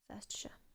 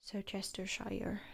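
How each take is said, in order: First: The middle part is shortened to ster. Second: The middle chester part is said in full. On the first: The speaker calls it right. "But it's actually just Surstershire" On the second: The speaker calls it wrong. "you get a lot of Unovans pronouncing that as like Sirchestershire"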